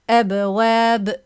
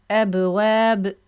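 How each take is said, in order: The two takes are said the same way.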